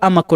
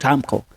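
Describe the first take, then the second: First: The name is said with three syllables. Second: The name is said with two syllables. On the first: The speaker calls it right. "it is called Amako" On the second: The speaker calls it wrong. "not Amco"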